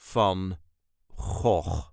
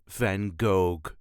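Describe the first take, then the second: First: Gogh starts with a rasping throat sound. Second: Gogh starts with a plain hard g. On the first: The speaker calls it right. "the way us Dutchies say Vincent van Gogh" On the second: The speaker calls it wrong. "please do not pronounce it as Van Gogh"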